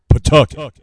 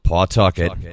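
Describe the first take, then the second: First: Said the way locals pronounce the city name. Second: Said the way outsiders pronounce the city name. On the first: The speaker is a local. The speaker calls it right. "Here in Rhode Island, it's Pawtucket" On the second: The speaker is from out of state. The speaker calls it wrong. "If you hear someone pronounce it the way it's spelled"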